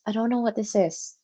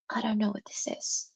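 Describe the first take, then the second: First: Said in the usual way. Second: Hushed, unvoiced whisper; a puzzled whisper to the chat. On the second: Real, not acted. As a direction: breathe it as a baffled aside to yourself. Puzzled aside then repeated aloud.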